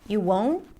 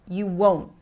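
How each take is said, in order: First: It sounds less certain and less forceful. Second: It sounds certain and strong, with a falling end. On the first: The answer is less definite. The speaker calls it wrong. "it makes it a little less powerful" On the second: The answer is final and certain. The speaker calls it right. "This is the beauty of the rising falling pitch"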